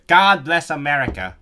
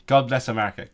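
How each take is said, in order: First: Loud, hammed-up American accent; playful over-the-top American patriot accent; mock American accent. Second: Said in the usual way. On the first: I can do part of American accent.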